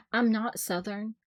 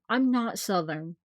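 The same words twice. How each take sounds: First: Said in the usual way. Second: Slow, slipped-in Southern accent. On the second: Real, not acted. A Southern accent slipping out while denying being Southern. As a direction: let a Southern accent creep in by accident. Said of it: "Most Southern way you could have said that".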